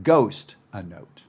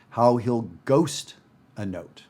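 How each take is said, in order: First: Slow, "ghost" accented and "note" ghosted; stress on ghost. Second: "ghost" punched, "note" barely said; stress on ghost. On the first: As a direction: lean hard on "ghost", let "note" barely sound. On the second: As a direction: hit the word "ghost" hard, slowly, and swallow "note". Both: Shown as a demonstration. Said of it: "I really hit the word ghost".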